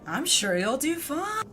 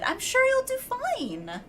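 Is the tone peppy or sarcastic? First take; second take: sarcastic; peppy. First: It is said in a sarcastic tone. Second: It is said in a peppy, sincere tone.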